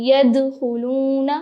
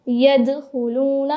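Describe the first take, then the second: The two takes are said the same way.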